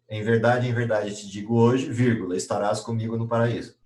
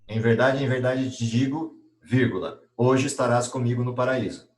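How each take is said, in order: First: The break comes after the word hoje. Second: The break comes before the word hoje.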